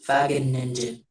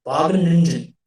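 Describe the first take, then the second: First: "Wageningen" tried with a Dutch V, as "VAH-gen-ing-en", said softly; first tentative go at "Wageningen" with a V sound; careful try at Dutch "Wageningen", starting with V; Dutch pronunciation attempt. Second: "Wageningen" again with a Dutch V, "VAH-gen-ing-en", falling firmly at the end; second, surer take on "Wageningen" with a V; confident Dutch-style "Wageningen" with a final fall; Dutch pronunciation retry. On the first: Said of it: "So I'm trying to sound like a Dutch person". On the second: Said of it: "Am I saying it right?". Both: Shown as a demonstration.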